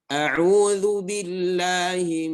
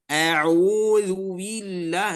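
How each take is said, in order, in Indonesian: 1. Bunyinya diucapkan dengan usaha yang sedang dan seimbang. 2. Bunyinya diucapkan dengan usaha yang berlebihan. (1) "kita pakai yang tawassut, yang di pertengahan" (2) "berlebihan itu ... ini berlebihan"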